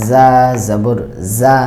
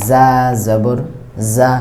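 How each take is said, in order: Both takes have the same delivery.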